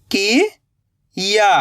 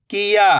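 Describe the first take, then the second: First: "किया" slowly split, rising "ki", long pause, "ya"; split into syllables. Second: "किया" joined in one go, no gap; blended word. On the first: Teacher building the word for learners, "किया" in slow pieces. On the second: Teacher giving learners the result, "किया" blended. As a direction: say "किया" whole, short i. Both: Shown as a demonstration. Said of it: "तो मिलके बन जाएगा".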